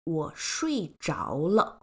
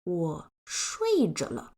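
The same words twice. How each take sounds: First: The character 着 is pronounced zháo. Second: The character 着 is pronounced zhe. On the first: It marks the result of falling asleep. The speaker calls it right. "this frequently used phrase" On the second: It marks an ongoing state. The speaker calls it wrong. "why isn't it"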